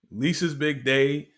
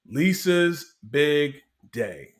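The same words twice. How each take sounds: First: Said in the usual way. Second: Slow, drawn-out announcer voice; dramatic announcement. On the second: Retold or imitated. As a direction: announce it like a movie title, slowly.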